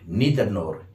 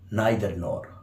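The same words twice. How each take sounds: First: It is pronounced the American way. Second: It is pronounced the British way. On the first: "Americans say" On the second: "British say"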